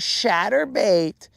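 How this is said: The word is said with a Mexican Spanish accent. A relative is mocking him. The speaker calls it wrong. "it should be more like"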